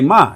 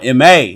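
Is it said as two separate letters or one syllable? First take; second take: one syllable; two letters. First: It is said as a single syllable. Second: It is said as two separate letters. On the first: The speaker calls it wrong. "That's why you don't say Ma" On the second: The speaker calls it right. "Nah, M A"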